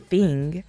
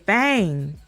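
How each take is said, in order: First: The word is said in a standard accent. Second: The word is said in a Southern country accent. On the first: "they don't say thing" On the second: "they talk country"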